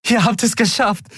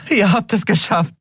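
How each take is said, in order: First: High jubilant voice; cheering. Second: High joyful repeat; cheering. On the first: Endriel cheering at the returning crew. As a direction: cheer it out with joy. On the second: Endriel repeating her joy to the crew. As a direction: say it again, overjoyed. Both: A narrator's reading. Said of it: "jubelte Endriel".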